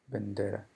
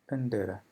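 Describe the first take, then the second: The two takes are said the same way.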